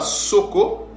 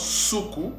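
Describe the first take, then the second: First: The vowels are pronounced like 'o'. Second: The vowels are pronounced like 'oo'. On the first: The speaker calls it wrong. "ce mot-là ne se prononce pas Soko" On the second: The speaker calls it right. "mais ça se prononce ou ça se prononce Suku"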